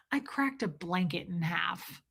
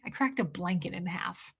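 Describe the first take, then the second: First: Quiet deadpan quote. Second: Soft, low deadpan; quiet deadpan quote. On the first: Quoting the blonde lady. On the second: Quoting the blonde lady to chat, soft deadpan. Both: Retold or imitated.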